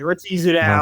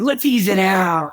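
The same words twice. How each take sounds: First: It is said with a snarling, scolding tone. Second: It is said in an excited, upbeat tone.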